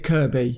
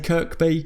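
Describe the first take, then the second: First: No k sound is heard before the b. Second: A k sound is heard before the b. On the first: The speaker calls it right. "in Liverpool they pronounce it Kirby" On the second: The speaker calls it wrong. "when I say Kirkby"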